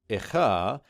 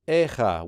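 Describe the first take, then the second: First: The vowel before the kh is reduced and indistinct. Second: A full e vowel is heard before the kh. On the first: "it would be an indistinct vowel sound" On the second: "you'll get that full segol"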